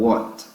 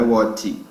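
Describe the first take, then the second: First: "what" dying on the T, no vowel after it; final T cut short. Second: "what" with an added "chi" vowel after the T; mispronounced final T. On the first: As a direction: stop "what" right at the T. ("what" morrendo no T, sem vogal no final) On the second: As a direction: finish "what" as "whatchi", Brazilian style. ("what" errado, com "tchi" no final) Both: Shown as a demonstration. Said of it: "Morre no T".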